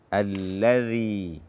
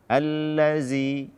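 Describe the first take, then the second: First: The middle consonant is a 'dh' sound. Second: The middle consonant is a 'z' sound. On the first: The speaker calls it right. "ujung lidah bersentuhan dengan ujung gigi seri atas" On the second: The speaker calls it wrong. "Jangan sampai diganti dengan zai"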